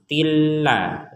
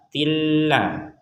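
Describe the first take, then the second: No difference in how they are said.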